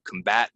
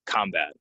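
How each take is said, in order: First: "combat" as com-BAT; verb stress. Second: "combat" as COM-bat; noun stress. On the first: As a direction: lean on the second syllable of "combat". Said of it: "it goes on the second syllable". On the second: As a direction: lean on the first syllable of "combat". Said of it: "it goes on the first". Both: Shown as a demonstration.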